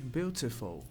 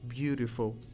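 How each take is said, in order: First: The middle consonant is a clear T sound. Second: The middle consonant is a quick R-like flap. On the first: This is the British way of saying it. "com som de T mesmo se fosse mais o inglês britânico" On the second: This is the North American way of saying it. "quando eu tenho um T entre duas vogais, que esse som de T não seja T, mas seja um som de R"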